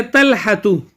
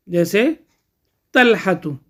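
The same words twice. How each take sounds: First: तलहतु spoken slowly and carefully, each syllable clear; slow example word. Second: Said in the usual way. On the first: Shown as a demonstration. Teacher to students, giving the example word slowly. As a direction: spell out तलहतु slowly for the class.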